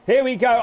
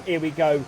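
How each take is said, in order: First: Here we go shouted, loud and punchy; sudden loud race-caller burst; excited shout. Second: Said in the usual way. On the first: Real, not acted. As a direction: call it out as the cars dive in. Excited call as the move happens.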